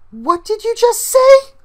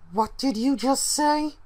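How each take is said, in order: First: It is said without a cold tone. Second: It is said in a cold tone.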